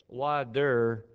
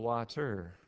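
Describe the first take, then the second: First: The middle consonant is a soft d-like sound. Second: The middle consonant is a clear t sound. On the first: "why do we say wader instead of water?" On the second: "We all know how to spell water"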